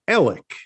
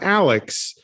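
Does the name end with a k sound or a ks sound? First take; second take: k sound; ks sound. First: The name ends with a plain k sound. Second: The name ends with a ks sound. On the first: The speaker calls it right. "the way you pronounce A-L-E-X is Alec" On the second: The speaker calls it wrong. "Not Alex"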